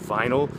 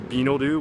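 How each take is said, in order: First: It is said with a native English accent. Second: It is said with a Japanese katakana accent. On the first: The speaker calls it right. "if you said the word vinyl" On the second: The speaker calls it wrong. "they would say binoru, which is completely wrong"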